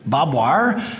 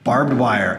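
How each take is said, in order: First: Barbed is reduced to sound like bob. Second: Barbed is said fully, with its r and d.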